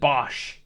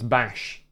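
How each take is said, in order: First: The vowel sounds like the one in 'gosh'. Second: The vowel sounds like the one in 'cash'. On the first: This is how the dub says the name. The speaker calls it wrong. "They pronounce it Bosch for some reason" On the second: This matches the name's spelling. The speaker calls it right. "even though it's Bash. B A S H"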